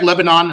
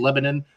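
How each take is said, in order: First: It is said like the country's name. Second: It is said the local Missouri way. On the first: The speaker calls it wrong. "it looks like Lebanon, and they got mad at me" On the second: The speaker calls it right. "It's actually Lebanon"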